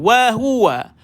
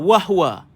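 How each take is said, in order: First: It is said slowly, keeping every vowel clear. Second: It is said fast, squeezing out the middle vowel. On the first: The speaker calls it right. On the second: The speaker calls it wrong.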